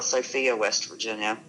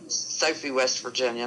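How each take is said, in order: First: The name ends in an 'ee-ah' sound. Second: The name ends in an 'ee' sound. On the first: This is how outsiders say the town's name. The speaker calls it wrong. "not Sophia" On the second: This is how locals say the town's name. The speaker calls it right. "it's Sophie"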